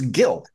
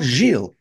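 First: The name is pronounced the English way. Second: The name is pronounced the French way. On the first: The speaker calls it right. "it's Gil. His name's Gil" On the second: The speaker calls it wrong. "it's not Gilles"

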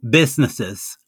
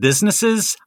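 First: The s sounds are lisped, like th. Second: The s sounds are clear, without a lisp. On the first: "I had a lisp. ... I would say" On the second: "instead of"

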